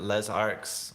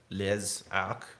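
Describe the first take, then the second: First: The name is said with an English accent. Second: The name is said with a French accent.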